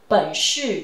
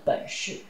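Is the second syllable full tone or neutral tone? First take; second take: full; neutral. First: The second syllable keeps its full tone. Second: The second syllable is in neutral tone.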